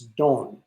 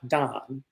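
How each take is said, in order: First: The name is pronounced the Italian way. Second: The name is pronounced the English way. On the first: The speaker calls it right. "That's the Italian pronunciation" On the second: The speaker calls it wrong. "it's not Don"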